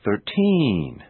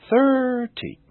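First: "Thirteen" with a long drawn-out TEEEN; exaggerated final stress. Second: "thirty" with a long, high THIIIR and short ending; exaggerated first-syllable stress. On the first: Teacher exaggerating so it's easier to notice, "Thirteen" with lengthened TEEN. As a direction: stretch the last vowel of "Thirteen". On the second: Teacher exaggerating so it's easier to notice, "thirty" with lengthened THIR. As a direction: stretch the first vowel of "thirty". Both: Shown as a demonstration. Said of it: "I will exaggerate them first".

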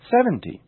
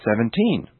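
First: "seventy" stressed on a high SEV; natural first-syllable stress. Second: Put-on "seventeen" stressed on TEEN; natural final stress. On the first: Teacher now saying them naturally, "seventy" stressed on SEV. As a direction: put the weight on SEV in "seventy". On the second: Teacher now saying them naturally, "seventeen" stressed on TEEN. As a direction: put the weight on the last syllable of "seventeen". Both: Shown as a demonstration. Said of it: "Now I'll say them naturally".

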